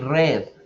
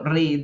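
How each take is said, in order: First: The vowel sounds like 'red'. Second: The vowel does not sound like 'red'. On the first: It is the past-tense form. The speaker calls it right. "se cambia la pronunciación al color rojo" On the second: It is the present-tense form. The speaker calls it wrong. "yo no digo read"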